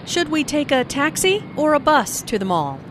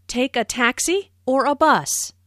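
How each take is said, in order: First: "taxi" rising, "bus" falling to close the choice; choice question tune. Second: "taxi" rising, "bus" falling at the end; choice intonation. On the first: Speaking partner asking about the mall, rise on "taxi", fall on "bus". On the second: Teacher modelling a choice question, rise on "taxi", fall on "bus". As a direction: lift "taxi", drop on "bus". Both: Shown as a demonstration. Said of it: "Notice the rising intonation on taxi".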